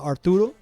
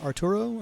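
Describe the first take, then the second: First: It is said with a Venezuelan Spanish accent. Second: It is said with an Americanized Spanish accent.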